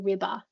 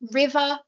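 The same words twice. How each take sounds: First: The middle consonant is a stop. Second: The middle consonant is a smooth fricative. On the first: The speaker calls it wrong. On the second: The speaker calls it right. "instead of saying river"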